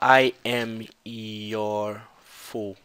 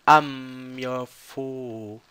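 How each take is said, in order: First: I am is said as two full words. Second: I am is contracted into one syllable. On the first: "Ela não fala I am your fool" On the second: "esse I am ele vira am"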